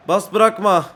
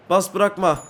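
No difference in how they are said.

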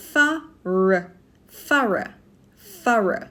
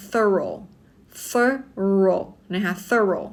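First: "thorough" as THUH-ruh, weak final vowel; teacher's own pronunciation. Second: "thorough" as THUR-oh, ending on a round o; American pronunciation. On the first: Teacher shows how she says it, "thorough" as THUH-ruh. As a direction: say "thorough" with uh in both syllables. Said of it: "กี่จะออกเสียงว่า". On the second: Teacher recalls Americans on TV, American "thorough" as THUR-oh. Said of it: "ถ้าเป็น American". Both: Shown as a demonstration.

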